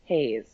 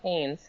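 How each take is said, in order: First: No n sound comes before the final s. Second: An n sound comes before the final s. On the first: The speaker calls it right. "That was my fault" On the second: The speaker calls it wrong. "not Haynes"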